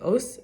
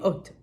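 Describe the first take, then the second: First: The word ends with a soft s sound. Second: The word ends with a hard t sound. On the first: "the final letter taf or saf can be soft like like os"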